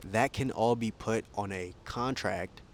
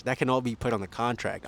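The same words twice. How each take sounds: First: Talking while being jostled; shaky recording. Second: Shaky recording. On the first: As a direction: speak while being shaken. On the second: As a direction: voice jolted by bumps. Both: Real, not acted. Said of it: "I'm sorry for the shaking".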